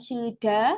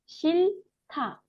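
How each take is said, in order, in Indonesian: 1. Suku kata kedua diawali dengan bunyi d. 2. Suku kata kedua diawali dengan bunyi t. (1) "Bukan shilda" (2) "Sehingga bacanya apa? Shilta"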